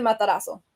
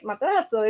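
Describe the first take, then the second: First: Matarazo said the Spanish way, an even, soft z like s; Spanish pronunciation. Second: Matarazo said the Italian way, stressing the middle syllable; Italian pronunciation. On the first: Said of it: "but I pronounce it Matarazo". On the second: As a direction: say Matarazo with Italian emphasis, a crisp double z. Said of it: "it's, like, more emphasis in Italian". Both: Shown as a demonstration.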